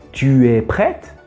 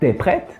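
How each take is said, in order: First: The word tu is fully pronounced with its vowel. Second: The vowel of tu is cut, giving t'es. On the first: "Au lieu de dire tu es prête" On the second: "on coupe le U et on dit t'es prête"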